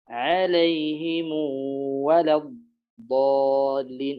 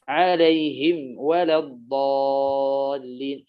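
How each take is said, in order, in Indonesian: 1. Huruf m akhir membawa vokal u yang dipanjangkan. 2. Huruf m akhir ditutup tanpa vokal. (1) "يقرأ بميم الجمع بصلة ميم الجمع" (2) "ويقرأ بعدمها"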